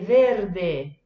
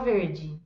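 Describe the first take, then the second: First: The word ends in a clear 'eh' vowel. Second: The word ends in an 'ee' vowel. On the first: This is the Italian pronunciation. "però la pronuncia é diversa" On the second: This is the Portuguese pronunciation. "em português a gente fala verde"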